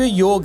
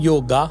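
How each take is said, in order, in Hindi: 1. शब्द का अंत व्यंजन 'g' पर होता है। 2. शब्द के अंत में लंबा 'aa' स्वर है। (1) "वास्तव में वो योग है" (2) "वो उसको कह देते हैं योगा"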